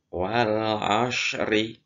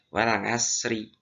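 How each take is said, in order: First: The s sound is thick and heavy. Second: The s sound is thin and light. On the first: It keeps the intended letter. The speaker calls it right. "untuk huruf shad itu harus tebal" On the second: It turns into a different letter. The speaker calls it wrong. "Kalau tipis nanti akan berubah menjadi huruf sin"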